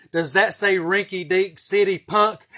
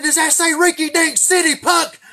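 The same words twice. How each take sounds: First: Loud, slow, drawn-out taunt; slow mocking trooper yell; repeated trooper yell. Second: Put-on high, loud furious bark at a kid; screaming state trooper; angry trooper yell. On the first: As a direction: spell it out slowly to the punk. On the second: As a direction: blow up at the boy like an outraged trooper. Trooper yelling after bribe.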